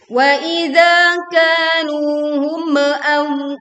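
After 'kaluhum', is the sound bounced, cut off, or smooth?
bounced. The final m is bounced with a small echo. "contoh yang kedua adalah memantulkan. itu pun keliru"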